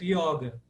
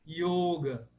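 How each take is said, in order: First: The first vowel is an open o. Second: The first vowel is a closed o. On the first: This is the Portuguese dictionary pronunciation. "o dicionário registra com som aberto" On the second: This is the classical Sanskrit pronunciation. "no sânscrito"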